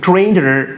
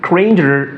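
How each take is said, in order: Both takes have the same delivery.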